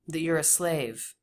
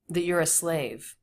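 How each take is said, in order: First: 'You are' is contracted and reduced to 'you're'. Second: 'You are' is contracted and reduced to 'you're'.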